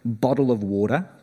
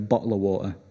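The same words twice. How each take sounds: First: The t sounds are said as soft d sounds. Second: The t sounds are dropped and not pronounced. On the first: "with D's" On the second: "ignore the T's"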